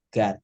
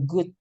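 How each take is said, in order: First: "God" with a short open vowel; pronunciation demo. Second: "good" with a short oo; pronunciation demo. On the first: Teacher showing how Tuhan is read, clear "God". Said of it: "itu cara bacanya". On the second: Teacher giving the word for baik, clear "good". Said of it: "teman-teman bisa bilang". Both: Shown as a demonstration.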